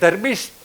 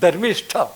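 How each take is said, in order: First: The final t sound is unaspirated, without breath. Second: The final t sound is aspirated, with breath. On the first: "ધર્મિષ્ઠ બોલાય ટ" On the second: "ધર્મિષ્ઠ બોલાય ઠ"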